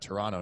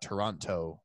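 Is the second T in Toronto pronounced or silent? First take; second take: silent; pronounced. First: The second T is silent. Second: The second T is pronounced. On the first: The speaker calls it right. "you're not supposed to pronounce the second T" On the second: The speaker calls it wrong. "not Toronto, which I've always been saying"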